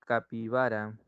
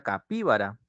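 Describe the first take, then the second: First: Said in the usual way. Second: Capíbara con el golpe en PÍ, como esdrújula; acento en la antepenúltima. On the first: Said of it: "sería capíbara". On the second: Shown as a demonstration. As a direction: carga la voz sobre PÍ en capíbara. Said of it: "Para que lleve tilde y sea esdrújula". (capíbara pronunciada como esdrújula, acento en PÍ)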